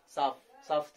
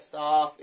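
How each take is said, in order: First: साफ said short and plain, the correct model; right way. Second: साफ stretched long and pushed, the wrong reading. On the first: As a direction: say साफ cleanly with a short vowel. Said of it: "साफ ऐसे नहीं". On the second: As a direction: overdraw the vowel in साफ to show the mistake. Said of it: "ऐसे नहीं". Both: Shown as a demonstration.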